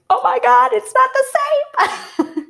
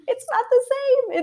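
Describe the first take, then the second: First: Much higher, slow astonished cry; shocked surprise. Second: Laughing. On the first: Mother stunned when her water breaks, high surprise. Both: Retold or imitated. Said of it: "that was when I was like".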